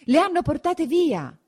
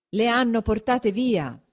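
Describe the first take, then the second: First: High-pitched exclamation of alarm; alarmed cry. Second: Slower, less piercing raised cry; echoed alarm. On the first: Villagers finding the women gone, high alarmed cry. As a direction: cry out the discovery, pitch leaping up. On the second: Villagers passing on that women were taken, drawn-out cry. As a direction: repeat the alarm drawn out, moderately high. Alarm repeated through the crowd. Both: A narrator's reading.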